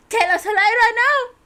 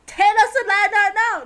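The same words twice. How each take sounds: First: Loud demand. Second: Loud demand again. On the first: Reading demand aloud. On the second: Repeating demand. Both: Acted.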